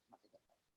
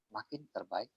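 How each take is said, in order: First: Faint whispered repeat; whispered echo. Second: Said in the usual way. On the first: Shown as a demonstration. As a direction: whisper "makin terbaik" as a fading echo. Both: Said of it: "repeated phrase, second whispered".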